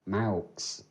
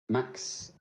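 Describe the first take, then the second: First: The vowel sounds like the one in 'ow'. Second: The vowel sounds like the one in 'ax'. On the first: The speaker calls it right. "it's actually Maux. Is how you pronounce it" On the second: The speaker calls it wrong. "obviously my name"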